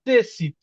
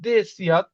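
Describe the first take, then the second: First: The word ends with an 'it' sound. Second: The word ends with a 'yat' sound. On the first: This simplified form is good enough. "এটুক বললেই হচ্ছে" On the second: This is the full native pronunciation. "উচ্চারণটা আসলে ... দেশিয়াত"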